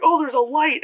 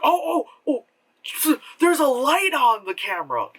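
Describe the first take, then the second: First: High, louder mock oh; mock surprise. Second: High, mock surprised oh oh; mock discovery. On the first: Vlogger mocking Cloverfield character, high mock surprise. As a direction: play dumb amazement at a light. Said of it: "it was like". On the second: Vlogger mocking a found footage character, high mock surprise. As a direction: fake amazement at finding a light. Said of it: "suddenly it's like".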